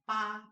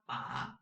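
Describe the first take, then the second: First: The pitch stays high and level. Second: The pitch rises from mid to high. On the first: "first tone" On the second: "second tone"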